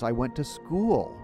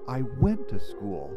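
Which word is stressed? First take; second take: school; went. First: The word school carries the stress. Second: The word went carries the stress. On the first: "the last possibility" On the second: "if I emphasize the second word"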